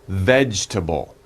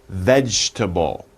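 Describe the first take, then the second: Both takes have the same delivery.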